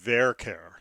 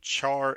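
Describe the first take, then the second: First: The word rhymes with 'air'. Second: The word rhymes with 'car'. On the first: "I call them care" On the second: "most people probably call them char"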